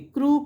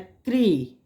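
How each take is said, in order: First: The syllable ends in an 'oo' vowel. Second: The syllable ends in an 'ee' vowel. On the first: The speaker calls it wrong. "क्रू कभी भी नहीं बोलोगे" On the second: The speaker calls it right. "क्री होगी"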